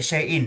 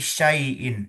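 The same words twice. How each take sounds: First: The a and i vowels blend into one sound. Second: The a and i vowels stay distinct and whole. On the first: The speaker calls it wrong. "jangan sampai syai'in" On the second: The speaker calls it right. "tapi syai'in. ... A dan I-nya itu tidak saling mempengaruhi"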